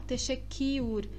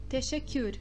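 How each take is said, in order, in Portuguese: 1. Uma vogal i plena e bem marcada segue o k. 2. Um deslize muito breve, parecido com i, segue o k. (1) "e não Techequiur, marcando este i" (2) "É um i muito rápido"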